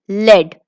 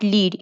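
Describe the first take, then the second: First: The vowel is short, like in bed. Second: The vowel is long, like in need. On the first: It names a metal. The speaker calls it right. "Lead is a name of a metal. Remember students, it is lead" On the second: It is a verb meaning to guide. The speaker calls it wrong. "not lead. If you say lead, lead is a verb"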